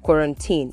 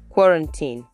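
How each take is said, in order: First: The stress falls on a later syllable. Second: The stress falls on the first syllable. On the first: The speaker calls it wrong. "So you don't say quarantine or quarantine" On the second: The speaker calls it right. "You say quarantine"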